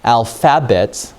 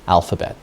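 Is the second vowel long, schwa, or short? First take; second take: short; schwa. First: The second syllable has a short vowel sound. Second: The second syllable has a weak schwa sound. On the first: The speaker calls it wrong. "if it's a short vowel, this would be alphabet. That doesn't sound right" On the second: The speaker calls it right. "This is called a schwa. And a schwa sounds like a short U sound"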